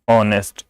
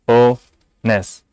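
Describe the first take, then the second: First: Said in the usual way. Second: honest broken in two, o, pause, nes; honest in two separate beats; split into syllables. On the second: Shown as a demonstration. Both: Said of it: "इसमें दो syllable ही".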